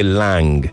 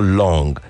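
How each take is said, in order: First: The vowel is an open 'ah' sound. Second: The vowel is a rounded 'aw' sound. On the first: "they will say lang" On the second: "like they want to call long"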